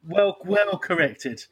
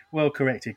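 First: Well, well corrected, drawn out slowly; slow emphatic. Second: Said in the usual way. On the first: Real, not acted.

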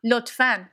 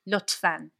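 First: Lotfan falling and clear; lotfan, firm. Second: Lotfan with short o and flat a. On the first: Teacher repeating lotfan for James. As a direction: model lotfan firmly. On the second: Teaching James to say please in Persian. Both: Shown as a demonstration. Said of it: "Say lotfan as well".

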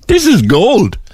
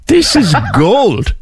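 First: High, bright "This is gold", no laugh yet; delighted. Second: Slow "This is gold" broken by a real laugh. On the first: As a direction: savour the story with delight. Host delighted by the pool story. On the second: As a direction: laugh right through the middle of it. Host laughing at the pool story. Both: Real, not acted.

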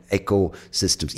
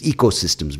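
First: "ecosystems" with a short e, as in "echo"; variant pronunciation. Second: "ecosystems" with a long ee at the start; alternative pronunciation. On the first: Offering listeners in other countries one variant, "ecosystems" said EK-oh-systems. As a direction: say "ecosystems" starting EK-oh. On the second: Correcting for whichever country listens, "ecosystems" said EE-koh-systems. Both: Shown as a demonstration. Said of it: "whatever you say it as".

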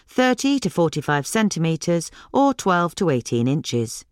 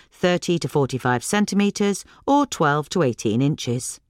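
No difference in how they are said.

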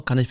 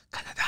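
First: Said in the usual way. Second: Dreamy hushed whisper; breathed out in wonder; awed whisper. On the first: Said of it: "tu fais Canada". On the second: Acted. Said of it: "Tu rêves, tu vois".

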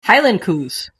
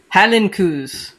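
First: Said in the usual way. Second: Slow, stretched-out Scottish try at "Highland coos"; attempted Scottish accent. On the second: Shown as a demonstration. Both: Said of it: "I can't do a Scottish accent".

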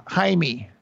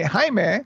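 First: Jaime with a final "mee" instead of "meh"; mispronounced name. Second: Jaime with a clear final "meh"; Spanish pronunciation. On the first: Retold or imitated. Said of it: "that just drove me crazy". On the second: Shown as a demonstration. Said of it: "most people, um, would say, uh, Jaime".

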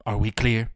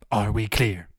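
First: Menacing demand. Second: Said in the usual way. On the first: Pretend. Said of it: "repeated demand". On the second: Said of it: "repeated after pause".

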